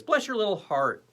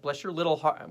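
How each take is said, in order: First: Higher-pitched blessing, falling at the end; mock blessing. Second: Said in the usual way. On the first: Shown as a demonstration. Host blesses a forgiven viewer's little heart, higher mock blessing. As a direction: lift BLESS high, then let it fall. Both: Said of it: "we'll do it like this".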